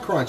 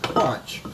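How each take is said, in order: First: The vowel is the usual 'uh' sound. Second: The vowel is said as an 'o' sound. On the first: It is an ordinary crunch. "not a crunch" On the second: It is a playful, more intense kind of crunch. "crunch with an O"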